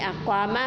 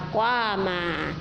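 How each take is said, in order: First: The final vowel is short. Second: The final vowel is drawn out long.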